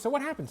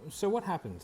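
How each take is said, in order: First: It is said in a light, playful tone. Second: It is said in a soft, empathetic tone. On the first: The speaker is teasing in a friendly way. "if I'm doing playful" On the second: The speaker cares about the listener's situation. "And then I've got empathy"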